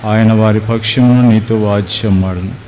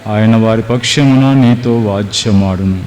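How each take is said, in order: Both takes have the same delivery.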